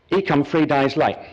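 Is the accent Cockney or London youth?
Cockney. It is said in a Cockney accent.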